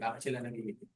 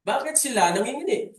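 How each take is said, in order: First: Lower, much softer repeat of the question; quiet repeat. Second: Higher, louder rhetorical question to the congregation; booming question. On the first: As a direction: ask it again softly, almost to yourself. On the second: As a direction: throw the question out loud and high. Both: Shown as a demonstration. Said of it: "Tanong natin".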